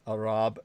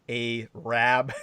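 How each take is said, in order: First: The two syllables are joined smoothly. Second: The two syllables are split apart. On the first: It comes across as respectful. The speaker calls it right. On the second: It comes across as offensive. The speaker calls it wrong. "you don't say something like a rab. It's very offensive to divide the syllables like that"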